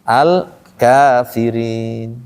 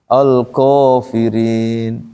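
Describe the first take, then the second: First: The long vowel after k sounds thin, like a. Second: The long vowel after k sounds thick, like o. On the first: The speaker calls it right. "Bunyi kan A kalau tipis" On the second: The speaker calls it wrong. "Itu tebal jadinya kan?"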